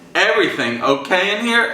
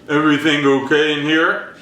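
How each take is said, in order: First: It is said in a normal voice. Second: It is said in a deep, gruff voice.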